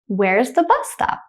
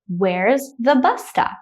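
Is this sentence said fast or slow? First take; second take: fast; slow. First: The sentence is said quickly. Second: The sentence is said slowly. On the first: "the next time I will say it quickly like a native speaker" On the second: "The first time I will say it slowly"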